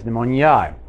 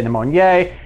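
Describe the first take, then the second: First: Pneumoniae ending in an "eye" sound; the Latinate "new-MOAN-yai" way of saying pneumoniae; correct pronunciation. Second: Pneumoniae ending in a long "ay" sound; the everyday "nee-MOAN-yay" way of saying pneumoniae; common pronunciation. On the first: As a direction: say pneumoniae to end like "nigh". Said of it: "the correct pronunciation is pneumoniae". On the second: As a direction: say pneumoniae to end like "nay". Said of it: "Most people say pneumoniae". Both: Shown as a demonstration.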